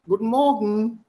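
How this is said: German accent, the -en ending merged together. "In a proper German way, the en at the end merges"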